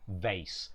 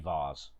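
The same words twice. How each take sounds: First: The word is said with the American pronunciation. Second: The word is said without the American pronunciation.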